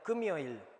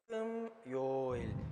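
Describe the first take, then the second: First: It is said smoothly at normal speed. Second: It is said slowly with separated parts. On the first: "para pronunciarlo normal" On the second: "separado, o sea, diciéndolo así lento"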